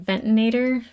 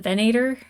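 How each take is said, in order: First: The word has four syllables, with an extra 'ti'. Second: The word has three syllables, with no 'ti'. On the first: The speaker calls it wrong. "I keep saying it wrong. I want to say the Ventinator" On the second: The speaker calls it right. "but it's the Venator"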